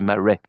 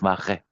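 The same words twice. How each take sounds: First: It is said with an American accent. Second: It is said with a French accent. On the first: "people say Marais" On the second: "instead of Marais"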